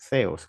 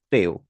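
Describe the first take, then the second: First: It begins with a soft th sound. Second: It begins with a plain t sound. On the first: "en griego se pronuncia theos, como una Z" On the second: "se pronuncia en español teo"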